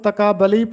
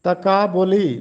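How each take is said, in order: First: The vowel after b is 'a'. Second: The vowel after b is 'u'. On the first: The speaker calls it wrong. "अक्सर लोग इसको तकाबली पढ़ते हैं बे पर ज़बर के साथ" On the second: The speaker calls it right. "जबकि पेश है तकाबुली"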